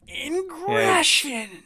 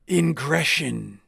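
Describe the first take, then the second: First: The name is said in a dramatic put-on voice. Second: The name is said in a plain, normal voice. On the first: The speaker calls it right. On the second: The speaker calls it wrong.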